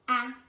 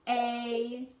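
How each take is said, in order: First: The vowel is said with its short sound. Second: The vowel is said with its long sound. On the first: "Those are the short sounds for the vowels" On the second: "The vowels also have a long sound"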